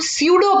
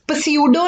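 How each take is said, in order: First: The p at the start is silent. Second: The p at the start is pronounced. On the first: The speaker calls it right. "इसमें पी silent है" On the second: The speaker calls it wrong. "इसे हम पस्यूडो नहीं पढ़ेंगे"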